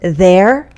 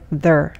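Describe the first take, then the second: First: The word is said with a full, clear vowel. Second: The word is said with a short, reduced vowel. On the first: "Instead of there" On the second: "sounds like there"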